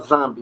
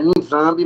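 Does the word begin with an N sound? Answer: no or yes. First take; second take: no; yes. First: The word begins directly with a Z sound. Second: The word begins with an audible N sound. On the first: The speaker calls it right. "mas se pronuncia Zambi" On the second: The speaker calls it wrong. "embora esteja Nizambi"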